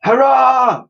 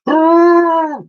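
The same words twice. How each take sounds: First: High cheering shout. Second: Very high, loud trumpeting hoot; mammoth hoot. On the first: Ship's crew cheering at the bridge, loud shout. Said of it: "shouted the". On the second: Woolley the mammoth joining the cheer, trumpeting hoot. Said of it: "hooted Woolley". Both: Acted.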